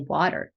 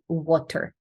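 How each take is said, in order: First: The middle consonant is a quick flapped T. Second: The middle consonant carries a foreign, non-flapped sound. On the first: The speaker calls it right. "eventually I managed to say water" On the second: The speaker calls it wrong. "That was my pronunciation"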